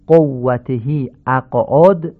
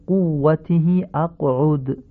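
First: "قوته اقعد" with o vowels, qowatehi aq'od; non-standard damma. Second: "قوته اقعد" with u vowels, quwwatihi aq'ud; correct Arabic damma. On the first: Teacher shows learners the faulty phrase, non-standard damma. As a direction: slowly open each damma in "قوته اقعد" to o. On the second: Teacher corrects the phrase for learners, correct Arabic damma. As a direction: slowly round each damma in "قوته اقعد" to u. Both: Shown as a demonstration. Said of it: "تمام این ضمه ها باید فصیح تلفظ بشن".

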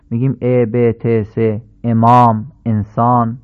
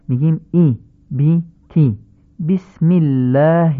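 First: کسره as Persian e in ب، ت، امام; Persian e for kasra. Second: بی، تی and بسم الله with a short Arabic i; short i for kasra. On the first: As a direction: say ا, ب, ت with the plain Persian e sound. (کسره با صدای ا فارسی) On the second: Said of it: "نمیگیم بسم الله". (کسره مثل ای کوتاه در بسم الله) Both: Shown as a demonstration.

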